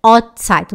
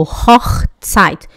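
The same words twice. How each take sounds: First: "Hochzeit" as "ot-zeit", h and ch dropped; missing ch. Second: "Hochzeit" with breathed h and scraped ch; correct ch. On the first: Retold or imitated. Teacher imitates student who couldn't say CH, "Hochzeit" as ot-zeit. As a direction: leave the rasp out of "Hochzeit": ot-tsait. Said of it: "ela falou". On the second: Shown as a demonstration. Teacher recalls the model given to student, "Hochzeit" with full ch. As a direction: scrape the back-of-throat ch in "Hochzeit". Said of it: "falar o C H".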